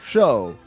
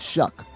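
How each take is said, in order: First: The name ends with a long vowel. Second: The name ends with a k sound. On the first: "or Show?" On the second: "You say it Shuck"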